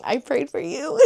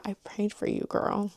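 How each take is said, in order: First: Higher, lightly sung-out I prayed for you; lightly put-on sweet voice repeating it; sweeter repeat. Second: Softer, hushed I prayed for you; quiet sincere line to a future friend; soft tender quote. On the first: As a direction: savour the line, playful and warm. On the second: Retold or imitated. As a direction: say it like a secret blessing to a friend. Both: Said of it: "I was like".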